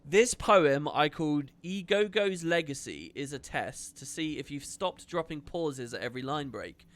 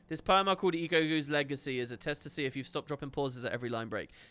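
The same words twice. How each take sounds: First: It is read at a normal pace. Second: It is read at a faster pace.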